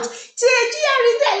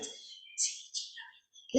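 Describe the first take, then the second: First: The letters are shouted loudly. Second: The letters are whispered.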